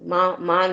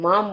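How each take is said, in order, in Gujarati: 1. તે બે અલગ ઉચ્ચારણમાં વહેંચાય છે. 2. એક ઉચ્ચારણમાં બોલાય છે, અંતે m. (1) "મા માં નહીં" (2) "મામ ઉપર મીંડું છે એટલે મામ બોલાશે"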